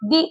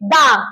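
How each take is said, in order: First: The vowel sounds like 'ee'. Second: The vowel sounds like 'uh'. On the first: The next word starts with a vowel. "তখন আমরা এটাকে উচ্চারণ করব দি" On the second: The next word starts with a consonant. "তাহলে উচ্চারণ হবে দা"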